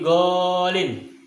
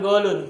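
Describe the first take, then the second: First: The word ends with an 'in' sound. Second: The word ends with an 'un' sound. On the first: The speaker calls it right. "tetapi golin" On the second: The speaker calls it wrong. "jangan salah ini bacanya bukan golun"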